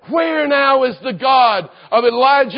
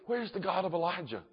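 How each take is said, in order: First: It sounds like a bold, faithful proclamation. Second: It sounds doubtful, trembling and fearful.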